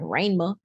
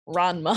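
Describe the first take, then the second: First: The name is said with a Southern drawl. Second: The name is said in a plain accent.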